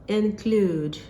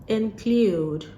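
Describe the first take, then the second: The two takes are said the same way.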